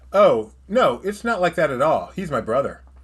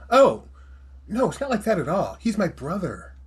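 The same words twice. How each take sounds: First: The line is read in a plain, ordinary voice. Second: The line is acted out in a character voice.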